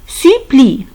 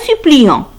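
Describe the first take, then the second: First: The ending is silent, with no nasal vowel. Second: The ending is pronounced as a nasal vowel. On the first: The speaker calls it right. "Parce que E N T se prononce E" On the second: The speaker calls it wrong. "Ce n'est pas suppliant. Non"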